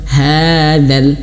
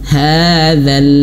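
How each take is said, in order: No difference in how they are said.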